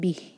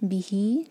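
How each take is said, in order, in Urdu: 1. یہ لفظ ایک خاموش، رکی ہوئی حرف پر ختم ہوتا ہے۔ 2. یہ لفظ ایک لمبی، کھنچی ہوئی مصوتہ پر ختم ہوتا ہے۔ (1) "ساکن کر کے رک جائیں گے" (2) "بہی چار حرکہ میں"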